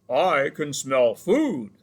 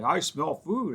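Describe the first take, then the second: First: Slow, loud bear voice calling; big hungry bear roars out from the trees; bear yelling. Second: Said in the usual way. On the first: A narrator's reading. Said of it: "yelled a voice from nearby". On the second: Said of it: "heard the bear say".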